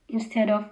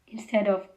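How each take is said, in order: No difference in how they are said.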